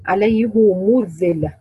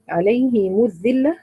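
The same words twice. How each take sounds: First: عليه said "alayhu", drawn out slowly; slow recitation, عليه ending in a u sound; damma on عليه. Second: عليه said "alayhi", drawn out slowly; slow recitation, عليه ending in an i sound; kasra on عليه. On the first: Teacher asking who reads it so, عليه with a damma. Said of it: "مين بيضم كده؟". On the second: Teacher reciting the word for her students, عليه with a kasra. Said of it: "نعمل له ايه عشان تخلصوا من التقاء الساكنين". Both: Shown as a demonstration.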